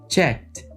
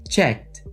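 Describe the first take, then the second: No difference in how they are said.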